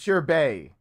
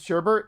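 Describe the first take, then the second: First: The second syllable has no R sound. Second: The second syllable has an extra R sound. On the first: The speaker calls it right. "It's sherbet. There's no second R" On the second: The speaker calls it wrong. "For everyone who's ever said sherbet, it's not"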